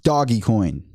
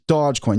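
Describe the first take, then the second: First: The first part is two syllables, 'doggy'. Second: The first part is one syllable, 'doge'. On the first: The speaker calls it right. "it's Doggy Coin because it is a meme coin" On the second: The speaker calls it wrong. "You're supposed to pronounce it Dogecoin"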